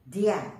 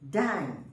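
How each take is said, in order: First: The syllable sounds like 'dee-ah', two vowels. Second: The syllable sounds like 'die', one diphthong. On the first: The speaker calls it wrong. "you don't pronounce as dia" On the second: The speaker calls it right. "you pronounce as die"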